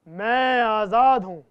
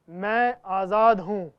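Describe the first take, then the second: First: It is said louder still, most forcefully. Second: It is said one level louder.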